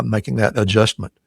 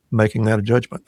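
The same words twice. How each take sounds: First: "adjustment" with a clear st in the middle; self-corrected "adjustment", st replacing the slipped j sound; corrected pronunciation. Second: "adjustment" slurred into "adjudgment"; slip of the tongue. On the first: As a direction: restate "adjustment" carefully, sounding the st. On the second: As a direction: stumble on "adjustment", a j sound replacing its st. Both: Real, not acted.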